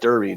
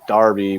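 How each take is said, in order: First: The first vowel sounds like the one in 'her'. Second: The first vowel sounds like the one in 'car'. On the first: This is how the spelling suggests it is said. "it looks like Derby to me" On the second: This is how locals say the name. "It's like Darby"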